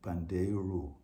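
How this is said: A Brazilian pronunciation ending in an 'oo' vowel. "the Brazilian will pronounce it Pandeiro with U at the end"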